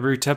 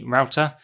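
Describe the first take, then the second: First: Router is said the British way, like 'rooter'. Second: Router is said the non-British way, like 'rowter'.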